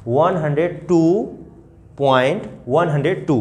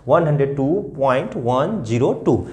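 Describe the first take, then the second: First: The wrong example, 'वन हंड्रेड टू' after the point said as one number; wrong way of reading. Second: After 'point' read each digit separately: 'वन ज़ीरो टू'; 'वन ज़ीरो टू' spelled digit by digit, not as one number; right way of reading. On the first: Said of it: "तो आप इसको ऐसे नहीं मत करना". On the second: Teacher shows children the correct digit-by-digit reading. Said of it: "इसके बाद क्या करेंगे बच्चे?". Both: Shown as a demonstration.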